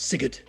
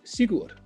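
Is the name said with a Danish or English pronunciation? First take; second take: English; Danish. First: The name is said with English pronunciation. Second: The name is said with Danish pronunciation. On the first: "and now it's" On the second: "in Danish, he would be pronounced"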